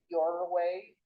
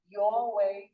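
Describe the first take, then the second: First: The R at the end of 'your' is pronounced. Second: The R at the end of 'your' is dropped. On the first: The speaker calls it wrong. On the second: The speaker calls it right. "let's get rid of final R's"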